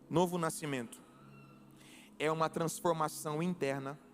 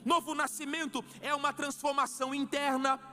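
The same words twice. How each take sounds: First: It is spoken at a noticeably slower pace. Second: It is spoken at a normal, quicker pace.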